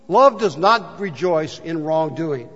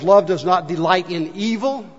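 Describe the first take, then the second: First: Slow reading. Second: Said in the usual way. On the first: Shown as a demonstration. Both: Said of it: "another Bible says".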